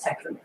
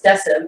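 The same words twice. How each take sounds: First: The name is said with the classical Latin pronunciation. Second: The name is said with the medieval pronunciation. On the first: "the actual Latin kind" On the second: "the medieval kind"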